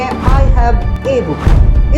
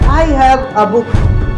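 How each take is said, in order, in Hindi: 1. Article 'a' एक पूरी, ज़ोर वाली 'ay' ध्वनि है। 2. आर्टिकल 'a' एक छोटी, कमज़ोर 'uh' ध्वनि है। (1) "ए की संख्या पर ज्यादा जोर देना हो तो आप ए को ए पढ़ सकते हैं" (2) "ए को आ पढ़ा जाता है"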